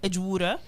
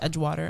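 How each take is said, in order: First: It is said in an Australian accent. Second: It is said in an American accent. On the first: "I always have to to use an Australian accent" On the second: "I never can say it as Edgewater"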